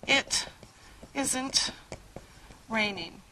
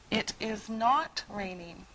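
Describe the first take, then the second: First: The words 'is not' are contracted to 'isn't'. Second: The words 'is not' are said in full.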